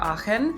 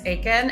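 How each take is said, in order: First: The name is said the European way. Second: The name is said the American way. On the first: This is how people say it in Europe. "when I'm in Europe, people will pronounce it as Aachen" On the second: This is how people say it in America. "when I'm in America, it's Aiken"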